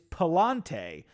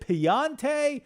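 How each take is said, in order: First: The middle consonant is said as an L sound. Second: The middle consonant is said as a Y sound. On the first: The speaker calls it right. "now it's actually the L sound" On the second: The speaker calls it wrong. "I've been using the Y sound for the L"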